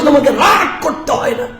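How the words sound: It is said in an angry, scolding tone. The parent is angry while telling the child not to be angry.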